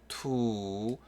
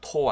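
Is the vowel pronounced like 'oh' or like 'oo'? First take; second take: oo; oh. First: The vowel sounds like 'oo'. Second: The vowel sounds like 'oh'. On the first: The speaker calls it right. "투 됩니다" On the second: The speaker calls it wrong. "토 아니고요"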